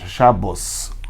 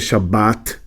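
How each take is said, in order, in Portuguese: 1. Tem vogal O e termina em S. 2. Tem vogal A e termina em T. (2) "o Sfaradi vai ler Shabbat, que é com T"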